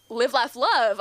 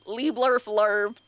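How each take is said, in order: First: Said in the usual way. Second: "Lee blurf lurb" said slow as garbled gibberish; imitated Simlish. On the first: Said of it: "And we were all like". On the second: Comedian quoting The Sims game, slow mock Simlish "Lee blurf lurb". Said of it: "She sang in Simlish".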